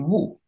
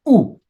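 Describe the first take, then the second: First: The vowel starts with a w sound. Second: The vowel starts with a glottal catch. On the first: "So maybe it should be woo" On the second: "it starts with an aleph"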